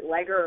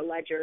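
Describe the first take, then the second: First: "Leger" with g as in "leg"; hard-g pronunciation. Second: "Ledger" with soft g as in "edge"; soft-g pronunciation. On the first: Host unsure how a company's name is said, hard-g "Leger". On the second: Host offering the other way to say a company's name, soft-g "Ledger". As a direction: say "Ledger" with a j sound. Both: Shown as a demonstration. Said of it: "if you pronounce it".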